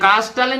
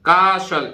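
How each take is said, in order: First: The word is said with a t sound. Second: The word is said without a t sound. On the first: The speaker calls it wrong. "ये कास्टल नहीं है" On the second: The speaker calls it right. "टी नहीं बोलेगा"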